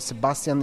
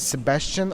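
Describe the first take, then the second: First: The name is said with German pronunciation. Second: The name is said without German pronunciation. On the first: "or more Sebastian in German" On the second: "the only difference is Sebastian"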